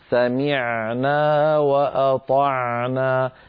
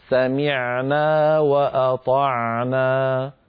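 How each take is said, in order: No difference in how they are said.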